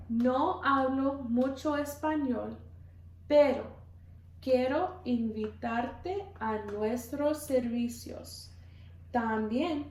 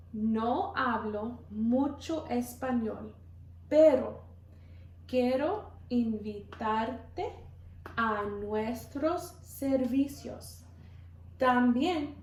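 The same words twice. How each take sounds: The two takes are said the same way.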